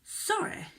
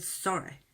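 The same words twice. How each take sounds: First: Very high-pitched, disbelieving "sorry"; incredulous echo. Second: Understated imitation of a sorry; retold tearful apology. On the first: Retold or imitated. Girlfriend repeating boyfriend's apology, incredulous. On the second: Girlfriend quoting boyfriend's crying apology, understated. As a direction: quote the crying apology quietly, without real tears. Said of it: "Started crying and said".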